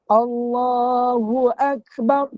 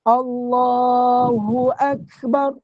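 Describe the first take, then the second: No difference in how they are said.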